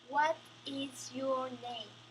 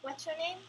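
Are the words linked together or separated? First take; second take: separated; linked. First: Each word is pronounced separately and distinctly. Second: The words are linked in one smooth flow. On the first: The speaker calls it wrong. "focusing on individual sounds" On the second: The speaker calls it right. "They link the word and talk more natural flow"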